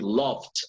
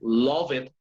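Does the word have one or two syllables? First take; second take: one; two. First: The -ed ending adds no extra syllable. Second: The -ed ending is sounded as an extra syllable. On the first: The speaker calls it right. "you say loved" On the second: The speaker calls it wrong. "You don't say love it"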